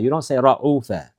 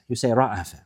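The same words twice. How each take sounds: First: رعوف said with a u in the middle, ra-U-fa; the mistaken رعوف, middle u; رعوف with the wrong u. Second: رعف said with an open a in the middle, ra-A-fa; the right form رعف, middle a; رعف with the a vowel; correct رعف. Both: Shown as a demonstration.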